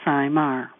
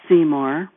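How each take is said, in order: First: The first syllable sounds like 'eye'. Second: The first syllable does not sound like 'eye'. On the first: The speaker calls it right. "Sai as an I and Mar as in car" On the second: The speaker calls it wrong. "I've been called many things"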